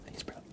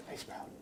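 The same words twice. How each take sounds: The two takes are said the same way.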